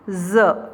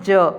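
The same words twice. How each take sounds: First: The consonant has its Urdu-style nukta sound. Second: The consonant has its plain Hindi sound. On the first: Used in borrowed Urdu or Persian words. "Urdu या फारसी के शब्द जो आगत है नुक्ता लगा होता है" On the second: Used in native Hindi words. "जब हम हिंदी में इनको बोलते हैं"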